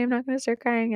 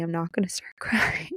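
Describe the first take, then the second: First: Quick, higher, giggly self-mockery; a fast, higher, laughing rush at her own tears; laughing at herself. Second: Whispered through welling tears, half laughing; a choked, laughing whisper fighting off tears; tearful whisper. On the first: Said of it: "and then I start crying". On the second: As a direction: hold back tears in a whisper. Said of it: "I say I'm not gonna start crying". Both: Real, not acted.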